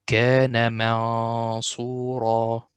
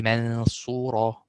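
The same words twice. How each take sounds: First: منصورا with a heavy, dark hum before صاد; magnified nasal tone. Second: منصورا with a wrongly thin, light hum; wrong light ghunna. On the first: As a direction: make the hidden noon heavy. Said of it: "the tone here is magnified". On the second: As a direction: demonstrate the mistake by thinning the tone. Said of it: "Don't say". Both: Shown as a demonstration.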